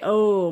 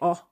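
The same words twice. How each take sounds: First: The vowel glides at the end, American-style. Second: The vowel stays short and pure, Scandinavian-style.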